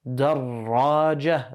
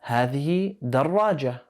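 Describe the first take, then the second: First: دراجة with a doubled ra, darraja; shadda on ra. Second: Said in the usual way. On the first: Shown as a demonstration. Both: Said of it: "The ra has the shadda".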